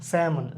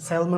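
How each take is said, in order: First: The word is said without an L sound. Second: The word is said with an L sound. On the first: The speaker calls it right. "এটাকে always স্যামন বলা হয়।" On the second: The speaker calls it wrong. "অনেকে বলি আমরা স্যালমন। ... এটা ভুল।"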